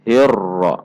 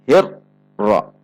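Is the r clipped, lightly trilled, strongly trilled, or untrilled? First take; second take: lightly trilled; clipped. First: The r has a light, moderate trill. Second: The r is cut off abruptly with a break. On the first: The speaker calls it right. "cara membacanya insyaallah hirra" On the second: The speaker calls it wrong. "dihentak membacanya seperti huruf syiddah"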